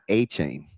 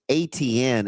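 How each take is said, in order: First: The middle of the name has a 'ch' sound. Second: The middle of the name has a 't' sound. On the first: This is how the player himself says the name. The speaker calls it right. "not A Chain ... that's his pronunciation" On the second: This is how most people wrongly say the name. The speaker calls it wrong. "calling Travis A T N"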